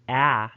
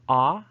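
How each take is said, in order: First: The vowel is a short front a. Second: The vowel is a long back ah. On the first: "in American English and Northern British varieties" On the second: "in Southern British English"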